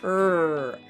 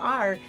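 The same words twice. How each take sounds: First: The letter is said as its sound. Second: The letter is said by its name. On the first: "that sound is R" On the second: "this is the letter R"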